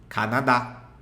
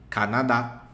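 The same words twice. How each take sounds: No difference in how they are said.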